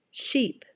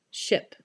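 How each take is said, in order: First: "Sheep" with long tense ee. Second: "Ship" with short relaxed ih. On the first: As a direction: stretch the ee in "Sheep". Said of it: "I'll start with the word that has the E sound". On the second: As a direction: clip the vowel short in "Ship". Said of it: "the second word in the pair will have the I sound". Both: Shown as a demonstration.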